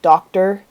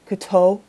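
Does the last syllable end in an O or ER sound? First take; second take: ER; O. First: The last syllable ends in an ER sound. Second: The last syllable ends in an O sound. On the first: "it's more of like an er as in a fur" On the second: "I have more of an O sound"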